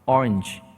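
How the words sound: It is said in English with a slight ch ending. The speaker calls it right. "치 발음 살짝 들어가요"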